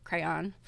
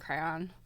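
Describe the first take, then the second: The two takes are said the same way.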